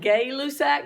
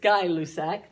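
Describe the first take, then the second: First: The first syllable sounds like 'gay'. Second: The first syllable sounds like 'guy'. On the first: The speaker calls it wrong. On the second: The speaker calls it right. "but it's Guy-Lussac, is how you say it"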